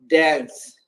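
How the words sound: The word is said with an American accent. "American pronounce it dance"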